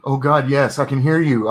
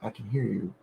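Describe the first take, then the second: First: Mild mock scream. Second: Much softer, held back; quiet retake. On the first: A narrator's reading. Trapped girl answers the priest, mild mock scream. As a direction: push it out like a silent scream. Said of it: "I wanted to scream". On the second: Shown as a demonstration. Narrator redoes the line, soft and quiet. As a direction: say it under your breath. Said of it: "There we go".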